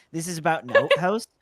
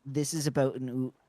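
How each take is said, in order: First: Canadian accent, "outhouse" said as "oot-hoose"; the Canadian "oot" take set against "about an oot". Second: Canadian accent, "about" said as "a-boot"; Canadian "oot" shown against the plain "outhouse". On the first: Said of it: "you can hear my oots coming out". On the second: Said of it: "So, like, if I say". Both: Shown as a demonstration.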